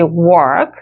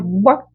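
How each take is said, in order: First: The word is drawn out with a heavy, deep stress. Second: The word is clipped short with a light stress. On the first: The speaker calls it wrong. "약간 임팩트 있게 work 이렇게 깊이 뭔가 이렇게 많이 넓게 찍어주는 것이 아니라" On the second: The speaker calls it right. "짧게 찍는 연습을 자꾸 해주세요"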